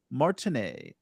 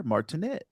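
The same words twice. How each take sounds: First: Martinet ending in an open "-ay"; French-style pronunciation. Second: Martinet with a short "-et" ending; alternative pronunciation. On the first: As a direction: say Martinet as "Mar-tin-AY", silent t. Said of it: "or Martinet, if you prefer". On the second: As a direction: say Martinet as "Mar-tin-ET", rising. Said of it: "if you prefer". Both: Shown as a demonstration.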